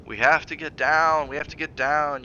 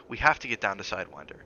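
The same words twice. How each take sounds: First: Husband mocks his wife's words, sneering; mocking repetition. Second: Said in the usual way. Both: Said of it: "You keep saying that".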